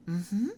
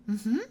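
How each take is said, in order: Both takes have the same delivery.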